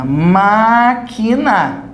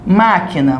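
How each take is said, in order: First: MÁÁ-qui-na, very slow, syllable by syllable; stressed syllable drawn out. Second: Said in the usual way. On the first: Shown as a demonstration. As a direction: stretch "máquina" out, holding the MÁ. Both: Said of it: "É acentuado".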